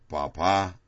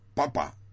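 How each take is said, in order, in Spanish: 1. El acento está en la última sílaba. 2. El acento está en la primera sílaba. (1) "con el acento en la sílaba de la derecha" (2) "con el acento en la primera sílaba"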